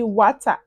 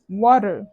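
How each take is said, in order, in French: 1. Il est prononcé avec un accent de manuel scolaire, non américain. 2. Il est prononcé avec un accent américain. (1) "À l'école, on t'a appris water" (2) "avec l'accent américain"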